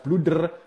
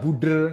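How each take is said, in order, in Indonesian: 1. Setiap bunyi kata ini diucapkan dengan jelas. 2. Satu bunyi di dekat awal kata dihilangkan. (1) "harus jelas bluder" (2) "nggak bisa buder"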